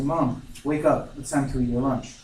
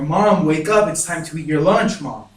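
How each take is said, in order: First: Mild anxiety. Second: Louder, urgent re-enacted plea; growing worry. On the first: Retold or imitated. Child to unresponsive mother at lunchtime, mildly anxious. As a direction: gently urge her awake, worry held in. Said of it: "immediately get anxious". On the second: Child shaking unresponsive mother to wake her, worried and insistent. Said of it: "now I'm starting to worry".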